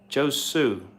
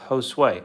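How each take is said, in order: First: The name ends with a 'soo' sound. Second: The name ends with a 'sway' sound. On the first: The speaker calls it wrong. "why was I was saying Josu?" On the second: The speaker calls it right. "It's pronounced Josue"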